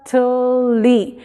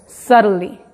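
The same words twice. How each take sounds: First: "subtly" said slowly with t and l apart; teacher slow demo. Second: "subtly" said with an r-like tl; teacher demo; flapped tl. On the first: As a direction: pronounce "subtly" slowly, each consonant. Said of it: "si te pones a pronunciarlo lento". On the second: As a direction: model "subtly" quick, tl blended. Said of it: "tiene un sonido más como R". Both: Shown as a demonstration.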